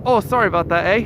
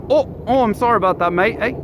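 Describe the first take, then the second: First: Canadian impression without the "mate"; Canadian accent. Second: Higher, apologetic mock Canadian; Canadian accent. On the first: Redoing the caller's apology without mate, mock Canadian accent. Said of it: "best Canadian accent". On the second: Retelling a caller's apology to viewers, mock Canadian accent. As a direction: put on an exaggerated Canadian accent. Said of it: "He sounded Canadian".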